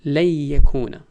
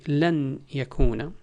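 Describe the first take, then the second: First: The n is dropped and merges into the y. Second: The n sound is clearly pronounced before the y. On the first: "when I'm talking fast, you would say" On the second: "I can say لن يكون"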